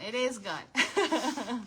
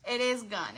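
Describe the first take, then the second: First: Drawn out slowly through a chuckle; slow laughing repeat. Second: Said in the usual way. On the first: Real, not acted. Laughing to viewers that the craft hearts sell out fast, said slowly. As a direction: laugh as you stretch out the words.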